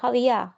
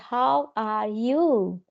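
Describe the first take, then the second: First: The last word is reduced and said quickly. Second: Every word is pronounced fully and carefully. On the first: The speaker calls it right. "in here we say how are you, how are ya" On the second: The speaker calls it wrong. "in India we say ev- each and every word"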